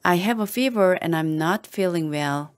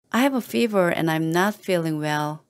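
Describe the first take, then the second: No difference in how they are said.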